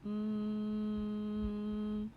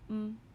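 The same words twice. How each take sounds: First: The sound is stretched out slowly. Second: The sound is said quickly and short. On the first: "My turn to say it slowly" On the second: "My turn to say it fast"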